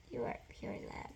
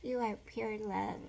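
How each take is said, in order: First: Said softer the second time; soft repeat. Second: Said in the usual way. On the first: Shown as a demonstration. Repeating a blessing to the viewer, softer. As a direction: hush it down, tender.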